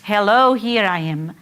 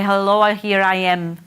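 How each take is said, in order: First: The pitch varies and falls clearly at the end. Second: The pitch stays flat with little final fall.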